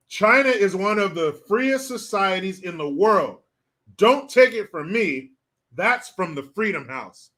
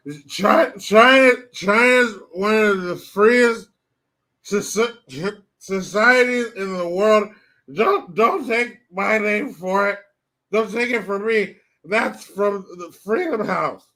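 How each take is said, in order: First: Said in the usual way. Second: Put-on slurred, dragged-out drunk hag voice; old drunk politician, halting and slurring, stumbling over words; Nancy Pelosi. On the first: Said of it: "let me translate that". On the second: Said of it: "Let me say it how she said".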